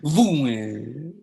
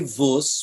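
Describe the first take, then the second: First: It is said with a Lodz vowel, "vuen". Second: It is said with a Galician vowel, "vus".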